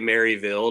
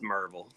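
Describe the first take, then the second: First: The name begins with a full 'Mary' sound. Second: The name begins with a short 'Mur' sound. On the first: It marks the speaker as an outsider. The speaker calls it wrong. "if you say Maryville to anyone here, you're liable to get yourself in a bad spot" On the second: It is how locals say it. The speaker calls it right. "it's M U R V L or just M R V L"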